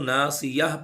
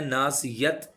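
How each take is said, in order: First: The word ends in an 'h' sound. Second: The word ends in a 't' sound. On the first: The speaker calls it right. "वक्फ करेंगे तो ना सियाह पढ़ना है" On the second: The speaker calls it wrong. "ना सियत नहीं करना, ता की आवाज़ नहीं निकालनी"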